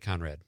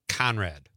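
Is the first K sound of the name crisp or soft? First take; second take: soft; crisp. First: The first consonant sounds soft and light. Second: The first consonant sounds hard and crisp. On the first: The name is spelled with a C. "Conrad is with a C is like" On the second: The name is spelled with a K. "Conrad with a K is like"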